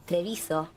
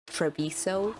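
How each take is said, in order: First: "Treviso" with a tapped r and a falling, clipped end; "Treviso" in her own native-style pronunciation. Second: "Treviso" said the English way, tre-VEE-so with a rising end; "Treviso" the way English speakers say it; English pronunciation. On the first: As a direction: say "Treviso" as she hears it in her head, with a light laugh. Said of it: "in my mind it's Treviso". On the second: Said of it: "people that speak in English saying". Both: Shown as a demonstration.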